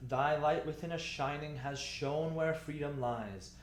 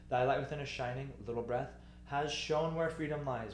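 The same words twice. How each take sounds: First: "Thy light within us shining has shone" run on without a break; one long connected recited line, no pause after "shining"; phrase in one breath. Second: "Thy light within us shining", break, "little breath" spoken as a cue, then onward; two short phrases split after "shining"; added breath mark. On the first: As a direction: carry straight through "shining" to "lies" on one breath. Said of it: "big breath". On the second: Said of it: "let's put another breath mark". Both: Shown as a demonstration.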